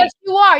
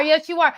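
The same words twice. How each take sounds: First: Emphatic retort. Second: Said in the usual way. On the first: Real, not acted. Teasing husband back.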